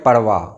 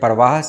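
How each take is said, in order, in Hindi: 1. शब्द का अंत बिना 'h' की आवाज़ के होता है। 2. शब्द के अंत में सुनाई देने वाला 'h' है। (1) "सही है परवाह, हे का इस्तेमाल नहीं होगा" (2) "परवाह सही नहीं है"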